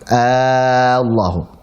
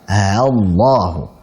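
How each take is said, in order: First: The opening vowel is held very long. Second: The opening sound is softened between catch and vowel. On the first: "diganti menjadi alif maka dipanjangkan enam harakat" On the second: "antara hamzah dengan apa? Alif"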